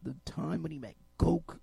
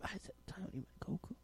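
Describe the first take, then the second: First: Said in the usual way. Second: Unvoiced whispered repeat of the line; breathy whispered aside. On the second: Real, not acted. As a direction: whisper it, half to yourself.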